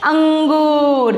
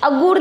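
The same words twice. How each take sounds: First: अंगूर drawn out slowly with a long ng; correct reading, nasal held. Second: अगुर with a bare g; wrong reading, nasal dropped. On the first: Teacher gives pupils the answer, अंगूर with long nasal. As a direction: stretch अंगूर and let the nasal ring. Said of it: "क्या पढ़ना है?". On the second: Teacher warns pupils, अगुर misread without nasal. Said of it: "अगुर नहीं पढ़ना है". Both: Shown as a demonstration.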